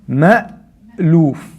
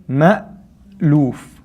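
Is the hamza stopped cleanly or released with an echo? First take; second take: clean stop; clean stop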